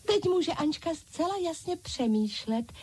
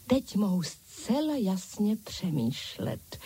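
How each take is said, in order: First: High-pitched echoing dolls; dolls crying out. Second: Said in the usual way. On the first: A narrator's reading. Other dolls announce that their leader can think, high-pitched exclaiming. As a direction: proclaim it in a high doll voice. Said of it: "zvolali ostatní panenky". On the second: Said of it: "chválila si Ančka".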